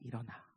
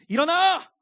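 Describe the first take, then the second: First: It is said gently and softly. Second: It is said harshly and loudly. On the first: This is how parents in the ancient Near East woke a child. "온유하고 부드러운 음성으로" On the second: This is how most parents here wake a child. "대부분 이렇게 깨우죠"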